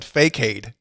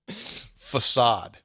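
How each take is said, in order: First: The middle consonant is a k sound. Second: The middle consonant is an s sound. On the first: The speaker calls it wrong. "I said fakeade" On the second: The speaker calls it right. "You just said it correctly there"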